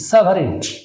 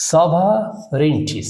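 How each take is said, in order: First: Said in the usual way. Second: সভারেনিটি slowly split as "sova, renti"; syllable by syllable. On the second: Shown as a demonstration. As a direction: draw out সভারেনিটি in separated chunks. (সভারেনিটি ধীরে, ভাগ করে বলা) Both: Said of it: "শুধু syllable করলে হবে না".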